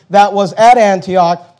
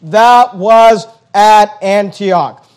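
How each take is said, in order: First: Said in the usual way. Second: "that was at Antioch" very slow, each word separately hit; slow emphasis. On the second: Real, not acted. Preacher highlighting the church's location in the verse, slow and emphatic. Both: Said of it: "notice again the emphasis".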